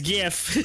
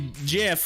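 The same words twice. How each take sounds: First: The word begins with a hard G sound. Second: The word begins with a soft J sound. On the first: This is how most people say it. "everybody reads it as GIF" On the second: This is how the makers wanted it said. "like the peanut butter, but spelled with a G"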